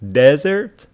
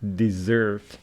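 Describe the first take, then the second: First: The stress is on the first syllable. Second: The stress is on the second syllable. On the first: It names a dry sandy region. "That one is Sarah" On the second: It names a sweet dish. "Stress on the second syllable"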